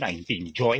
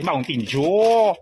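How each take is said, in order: First: The name is garbled like a child's speech defect. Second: The name is said clearly with normal sounds. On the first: The speaker calls it wrong. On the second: The speaker calls it right.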